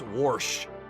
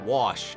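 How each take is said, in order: First: The word is said with an r sound. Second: The word is said without an r sound. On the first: "an R found its way into the word" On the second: "it's not wash"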